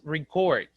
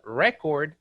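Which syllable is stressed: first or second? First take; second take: second; first. First: The stress is on the second syllable. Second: The stress is on the first syllable. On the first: It is used as a verb. "if you hear it as a verb, it's record" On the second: It is used as a noun. "But record is different"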